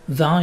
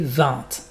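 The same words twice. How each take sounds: First: The word ends without a T sound. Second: The word ends with a clear T sound. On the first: It means wine. The speaker calls it wrong. "Don't say vingt. vingt, it's wine" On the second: It means twenty. The speaker calls it right. "you say the T at the end"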